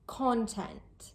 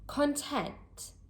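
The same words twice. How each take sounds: First: The stress is on the first syllable. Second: The stress is on the second syllable. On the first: It is the noun meaning information or media. "The stress is placed on the first part of the word, the first syllable" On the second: It is the adjective meaning happy or satisfied. "The word stress is placed on the second part of the word, on the second syllable"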